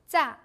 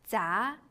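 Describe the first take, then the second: First: The syllable has a falling tone. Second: The syllable has a rising tone.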